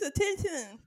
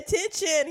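First: The word is said with a lisped th-like sound. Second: The word is said with a clear sh sound. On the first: "He's attention" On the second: "He does not say attention"

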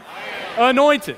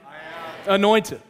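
First: It is said with strong conviction and emphasis. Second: It is said plainly, without extra emphasis.

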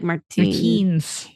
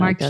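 First: The name ends with a hard S sound. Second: The name ends with a softer sound. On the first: The speaker calls it wrong. "I don't even think it's probably hard S" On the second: The speaker calls it right. "like a softer"

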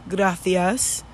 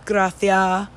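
First: The final S sound is pronounced. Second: The final S sound is dropped.

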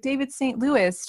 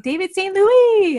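First: The name is said with an English accent. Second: The name is said with a French accent. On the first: The name sounds dull and unexciting. The speaker calls it wrong. "it doesn't have the same excitement to it" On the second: The name sounds exciting and fun. The speaker calls it right. "French, right? Yeah, a little French accented"

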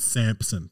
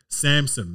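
First: The name is said with a p sound. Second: The name is said without a p sound. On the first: The speaker calls it wrong. "not Samson" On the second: The speaker calls it right. "There's no P"

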